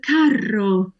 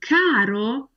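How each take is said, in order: First: Carro with a long rolled R; slow down and hold the trill in carro; double R. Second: Caro with one quick tapped R; single R. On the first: Teacher contrasting two meanings, carro with double R. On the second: Teacher contrasting two meanings, caro with single R. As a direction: flick the R in caro just once. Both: Shown as a demonstration. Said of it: "important to get that double R across".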